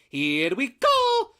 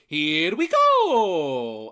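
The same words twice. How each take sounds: First: A Mario impression with a high-pitched voice. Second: A Mario impression with a low-pitched voice.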